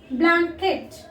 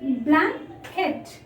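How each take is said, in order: First: Said in the usual way. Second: Blanket drawn out as blan-ket, both syllables clear; blanket said slowly by syllables. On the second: Shown as a demonstration. Teacher showing pupils the two syllables in blanket, slow and careful. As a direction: stretch blanket so the class hears blan and ket. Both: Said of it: "If we pronounce this word".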